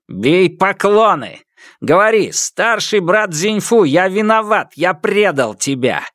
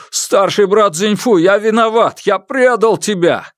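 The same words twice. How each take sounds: First: Commanding dictation. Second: High, loud forced confession; father kneels and repeats the kidnapper's words, high and loud; forced loud apology. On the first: Kidnapper dictates humiliating apology. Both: Acted.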